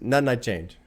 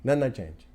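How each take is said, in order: Both takes have the same delivery.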